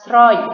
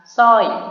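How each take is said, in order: First: The word begins with an sr sound. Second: The word begins with a plain s sound. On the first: The speaker calls it wrong. "dia tidak dibaca dengan kata sroy" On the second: The speaker calls it right. "tapi dibaca dengan kata soy"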